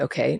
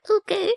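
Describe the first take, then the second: First: It is said in a calm, neutral tone. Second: It is said in a weak, timid tone. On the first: The speaker simply ends the discussion. The speaker calls it right. "I would recommend a neutral tone" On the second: The speaker is giving in. The speaker calls it wrong. "not like weak, like"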